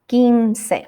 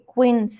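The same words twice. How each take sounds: First: The U after the Q is silent. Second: The U after the Q is pronounced. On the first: The speaker calls it right. "that U after Q is silent. ... we have to say quince" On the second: The speaker calls it wrong. "we don't say quince"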